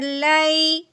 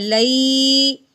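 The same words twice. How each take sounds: First: The syllable is said softly without lengthening. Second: The syllable is stretched out long. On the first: The speaker calls it right. "नरमी से पढ़ना है, खींच के बिल्कुल नहीं पढ़ना" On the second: The speaker calls it wrong. "ना ही हमने खींच के पढ़ना है"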